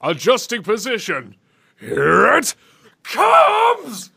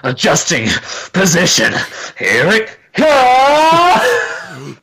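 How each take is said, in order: First: Rising to a shouted "comes"; imitating the villain. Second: Drawn-out shout on "comes"; Dragon Ball Z yelling. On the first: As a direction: copy the game line. Imitating the clip just played. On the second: Pretend. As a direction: yell it like an anime fight. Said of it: "just, like, yelling really loud".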